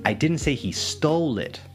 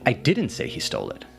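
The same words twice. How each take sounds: First: The word 'stole' carries the main stress. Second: The word 'didn't' carries the main stress. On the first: The person got it some other way. "so maybe clarifying that maybe they did pay or" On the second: The speaker denies saying it at all. "clarifying that you did not say that"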